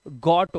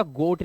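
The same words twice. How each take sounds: First: गॉट with open short "o"; short O reading. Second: गोट with rounded long "oh"; long O reading. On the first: Teacher spells it out for students, गॉट with open "o". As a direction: say गॉट like English "got". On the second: Teacher warns students off this reading, गोट with long "oh". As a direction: say गोट like English "goat". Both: Shown as a demonstration. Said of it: "गोट नहीं पढ़ेंगे इसे".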